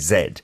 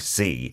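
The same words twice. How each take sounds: First: The letter is said the British English way. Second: The letter is said the American English way.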